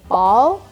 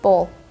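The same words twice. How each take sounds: First: American accent with a longer vowel. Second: British accent with a short vowel.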